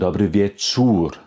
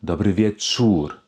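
The two takes are said the same way.

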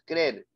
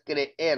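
First: The two e sounds merge into one syllable. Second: The two e sounds are in separate syllables. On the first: The speaker calls it wrong. "no es creer" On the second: The speaker calls it right. "Es creer"

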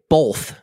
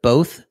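First: The word is said with an added L sound. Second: The word is said without any L sound. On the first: "we say both" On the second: "instead of both"

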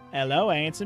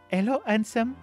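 First: It is said in a plain, unaccented voice. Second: It is said with a French accent.

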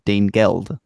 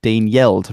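First: The second word starts with a hard G. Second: The second word starts with a Y sound. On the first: This is the unpalatalized pronunciation. "rather than Dane Geld" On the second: This is the older palatalized pronunciation. "would have pronounced it Dane Yeld"

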